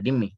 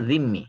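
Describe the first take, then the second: First: The word begins with a plain d sound. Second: The word begins with a z-like sound. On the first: The speaker calls it wrong. "অনেকে ডিম্মি পড়ে ... এটা কিন্তু একবারে রং উচ্চারণ" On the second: The speaker calls it right. "শুদ্ধ উচ্চারণ হলো যিম্মি। জাল দিয়ে।"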